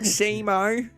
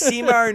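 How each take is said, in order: First: The first syllable sounds like 'sea'. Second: The first syllable sounds like 'sim'. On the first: The speaker calls it wrong. "like sea, like the ocean, and then Mo" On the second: The speaker calls it right. "Sim O, like the Sims game, and then O on the end"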